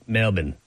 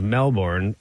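First: Melbourne said as "MEL-bin"; Melbourne with no R, local Australian way; local pronunciation. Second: Said in the usual way. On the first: Shown as a demonstration. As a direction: swallow the end of Melbourne, "MEL-bn". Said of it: "pronunciation of Melbourne, although accurate as Melbourne". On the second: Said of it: "although accurate as Melbourne".

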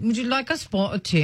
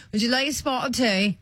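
First: Another go at a bad British accent; mock British accent. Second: A put-on posh British accent, badly done; a bad British accent on purpose; mock British accent. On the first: Radio host trying the British accent again to listeners. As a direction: play up the British accent, badly. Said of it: "I have an awful accent". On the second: Radio host mocking a British tea offer in a bad British accent. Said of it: "That's awful, isn't it?". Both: Shown as a demonstration.

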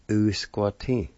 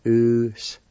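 First: "Usquatin" as one connected word; whole-word teaching take of "Usquatin"; joined-up pronunciation. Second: "Usquatin" in separate syllables, louder start; broken-up teaching take of "Usquatin"; syllable-by-syllable demo. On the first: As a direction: blend the syllables of "Usquatin". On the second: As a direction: sound out "Usquatin" with long gaps. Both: Shown as a demonstration. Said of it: "It's pronounced like this".

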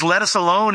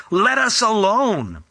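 First: Said in the usual way. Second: Very slow, higher drawn-out plea; lightly voiced demon crying out; demon's cry. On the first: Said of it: "to cry out means to shout or scream". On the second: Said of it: "cried out with a loud voice".

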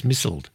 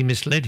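First: Missled as MIZ-uld; former misreading. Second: Misled as miss-LED; correct pronunciation. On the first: Host admitting a childhood misreading, missled as MIZ-uld. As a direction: say missled to rhyme with drizzled. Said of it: "I always used to read misled as missled". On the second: Host giving the real word, misled as miss-LED. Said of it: "I always used to read misled". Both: Shown as a demonstration.

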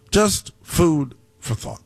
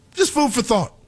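First: Slow, word by word, in usual pitch; slow, deliberate repeat. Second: Quick, much higher aside; high-pitched aside. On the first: Host repeating his point to listeners, slow and deliberate. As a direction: space it out deliberately. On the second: Host teasing listeners about the offense, high-pitched aside. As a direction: toss it out high, falling at the end. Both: Real, not acted.

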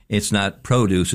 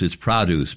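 First: "produce" with a long O, PRO-duce; rejected pronunciation. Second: "produce" with an open first vowel, PRAH-duce; guide's pronunciation. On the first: Citing the NBC guide's wrong version, produce as PRO-duce. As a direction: say produce with pro as in professional golfer. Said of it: "the N B C pronunciation guide". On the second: Citing the NBC guide's approved version, produce as PRAH-duce. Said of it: "that's how they pronounce it". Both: Shown as a demonstration.

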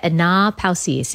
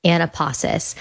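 First: Anapausis said the Greek way, ah-nah-POW-sees; careful Greek anapausis with a strong P and an ow sound; Greek pronunciation. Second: Anapausis anglicized as AN-uh-pah-sus; English reading. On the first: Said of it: "It's a little bit strange how you say it". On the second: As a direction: read anapausis like an English word, stress on the first syllable. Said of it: "we'd probably say". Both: Shown as a demonstration.

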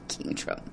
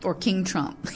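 First: Breathy giggle, almost whispered and much softer; amused whisper through a laugh. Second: Said in the usual way. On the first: Real, not acted. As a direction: chuckle the words under your breath. Repeats joke through a laugh.

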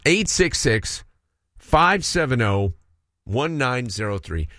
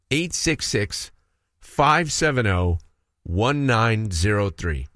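First: Said in the usual way. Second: Each digit read slowly and clearly; slow, spaced-out number. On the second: Shown as a demonstration. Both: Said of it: "put that on speed dial".

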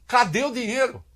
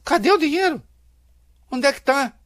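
First: High-pitched rhetorical question; pointed question. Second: Very high-pitched, pressing question; insistent demand. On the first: Commentator asking where the money is, pointed. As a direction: ask it pointedly, pitched up, at normal volume. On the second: Commentator demanding the missing money, insistent. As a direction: press the question hard, voice jumping up. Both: Real, not acted.

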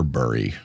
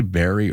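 First: "bury" with the vowel of "fur"; "bury" sounded like "burr-ee"; bury rhyming with furry. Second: "bury" with the short e of "bed"; "bury" sounded just like "berry"; bury rhyming with berry. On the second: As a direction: say "bury" as BERR-ee. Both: Shown as a demonstration. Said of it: "Do you say bury or bury?".

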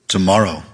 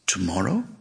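First: "tomorrow" low and loud, falling at the end; low, definite fall on "tomorrow"; confirming. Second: "tomorrow" soft and low, rising at the end; low, tentative rise on "tomorrow"; questioning. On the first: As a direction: confirm "tomorrow" firmly with a downward close. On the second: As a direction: ask "tomorrow" quietly with an upward lift. Caller asks to meet tomorrow. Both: A narrator's reading.

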